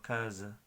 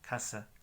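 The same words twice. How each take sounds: First: The s is a soft buzzing z sound. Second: The s is a sharp hissing sound. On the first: This is the Portuguese pronunciation. "es más flojo, es como casa, casa, z" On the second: This is the Spanish pronunciation. "es como S"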